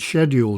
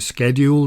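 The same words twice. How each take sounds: First: It is said with a British pronunciation. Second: It is said with a North American pronunciation. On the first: "in the U K it's scheduled" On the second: "Having lived in the U K and in Canada and the U S, they say scheduled"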